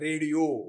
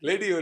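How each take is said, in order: First: The word begins with an R sound. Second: The word begins with an L sound.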